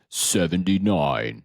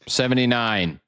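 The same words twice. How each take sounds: First: Announcer voice. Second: Said in the usual way. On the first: Shown as a demonstration. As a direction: announce it like a big reveal. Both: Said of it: "I'm wondering if I should do a special voice".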